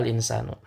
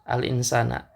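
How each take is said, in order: First: The word ends in an u vowel. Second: The word ends in an a vowel. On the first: The noun is in the nominative case. "harokat akhirnya adalah domah" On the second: The noun is in the accusative case. "harokat akhirnya berharokat fathah"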